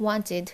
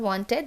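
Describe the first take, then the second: First: "wanted" falling on a light "tid"; short I closing "wanted"; correct ID ending. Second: "wanted" with a full "ted"; heavy E closing "wanted"; wrong ED ending. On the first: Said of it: "this is". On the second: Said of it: "this is not wanted". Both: Shown as a demonstration.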